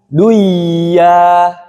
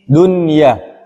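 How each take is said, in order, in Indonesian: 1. Bunyi n melebur ke dalam bunyi y setelahnya. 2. Bunyi n terdengar jelas sebelum y. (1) "tidak dibaca duya" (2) "dunia tidak dibaca duya"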